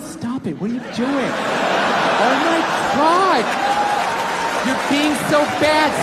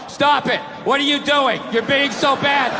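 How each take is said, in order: First: It is said in a playful, teasing tone. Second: It is read out in a flat tone.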